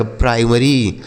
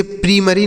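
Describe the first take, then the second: First: Slow "प्राइमरी" with eye in the first syllable; primary read as "pry-mary". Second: "प्रीमरी" starting like "pree"; primary misread as "preemary". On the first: Teacher correcting pupils, slow "प्राइमरी" with eye sound. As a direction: stretch out "प्राइमरी", starting like "pry". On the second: Teacher showing pupils the misreading, "प्रीमरी" with long ee. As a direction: say "प्रीमरी" with ee in the first syllable. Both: Shown as a demonstration. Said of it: "इसे प्रीमरी नहीं पढ़ेंगे".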